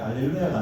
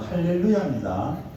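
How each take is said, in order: First: The word begins with a vowel, no h sound. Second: The word begins with a breathy h sound. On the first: The speaker calls it wrong. "할렐루야가 아니고" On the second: The speaker calls it right.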